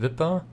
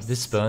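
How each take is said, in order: First: No s sound comes before the p. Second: An s sound comes before the p. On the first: The speaker calls it wrong. "nicht Wipper" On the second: The speaker calls it right. "Whisper, nicht Wipper"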